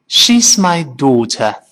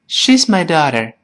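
First: It is said in a British accent, mouth opening wide. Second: It is said in an American accent, mouth moving little. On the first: "英国人说" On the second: "美国人呢就懒惰的很，说成"

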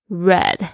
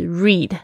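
First: The vowel is short, like in 'bed'. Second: The vowel is long, like in 'bead'. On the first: The action happened in the past. "过去时呢长得是一模一样，但是要读成read" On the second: The action happens in the present. "它的原型呢现在时是read"

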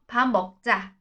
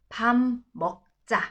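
First: The phrase is said at a quicker pace. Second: The phrase is said very slowly. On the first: "那我们快一点" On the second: "超慢版的啊"

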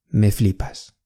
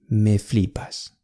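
Both takes have the same delivery.

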